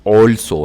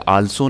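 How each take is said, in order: First: The first vowel is a rounded 'aw' sound. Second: The first vowel is an open 'aa' sound. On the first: The speaker calls it right. "बल्कि ये ऑल्सो है, ओ की तरह" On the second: The speaker calls it wrong. "ये आल्सो नहीं है"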